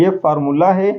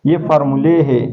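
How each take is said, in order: First: फार्मूला said with a clear open a at the end; singular formula. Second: फार्मूले said with a long e at the end; plural formulae. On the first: Teacher showing students the singular, ending फार्मूला on a. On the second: Teacher showing students the plural, ending फार्मूले on e. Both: Shown as a demonstration. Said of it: "देखो इधर difference".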